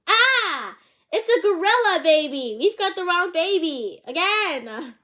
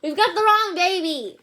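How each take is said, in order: First: High, loud panicked shout; yelling in alarm. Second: High, loud panicked shout; alarmed shout. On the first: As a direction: shriek it out, much higher and louder. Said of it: "they both yelled". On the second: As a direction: shout it in dismay. Parents panic over wrong baby. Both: Acted.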